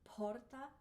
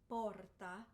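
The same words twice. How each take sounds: First: The P has a puff of air. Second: The P has no puff of air. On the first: The speaker calls it wrong. "we don't want p, an aspirated P" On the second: The speaker calls it right. "like you stop the sound"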